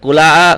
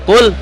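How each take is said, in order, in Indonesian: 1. L-nya langsung nyambung ke vokal berikutnya. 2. L-nya ditahan, terpisah dari vokal berikutnya. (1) "tidak dibaca kula" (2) "kul tuh misah"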